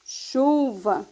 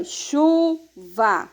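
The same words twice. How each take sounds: First: Said in the usual way. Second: "chuva" slowly split as chu, va; teacher's slow "chu... va", pausing between syllables. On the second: Shown as a demonstration. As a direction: say "chuva" in two separate, drawn-out syllables. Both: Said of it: "você vai separar ela em duas sílabas".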